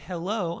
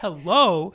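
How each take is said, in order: First: The greeting sounds mean and curt. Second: The greeting sounds warm and friendly.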